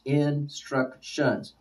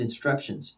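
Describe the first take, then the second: First: "instructions" very slow, in three separate beats; syllable by syllable. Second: Said in the usual way. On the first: Shown as a demonstration. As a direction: break "instructions" into in, struc, tions, softly. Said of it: "three syllables". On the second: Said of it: "upon which syllable is the stress".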